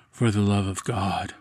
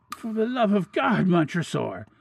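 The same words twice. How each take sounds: First: Cold echo. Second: High, anguished cry for mercy; desperate plea. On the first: Captor answers his victim's last plea, coldly calm. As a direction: repeat it evenly, without any urgency. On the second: Walled-in victim begs Montresor for mercy, desperately. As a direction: beg for your life, voice pitched high. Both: A narrator's reading.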